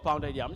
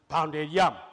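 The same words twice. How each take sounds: First: Syllables follow English stress patterns. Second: Syllables carry level, tone-like pitches. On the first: The speaker calls it right. "instead of" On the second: The speaker calls it wrong. "We have even translated it to"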